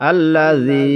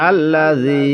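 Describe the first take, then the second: The two takes are said the same way.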